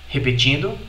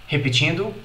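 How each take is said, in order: No difference in how they are said.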